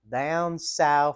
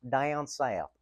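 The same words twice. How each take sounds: First: It is said in an exaggerated Southern accent. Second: It is said in the speaker's normal accent.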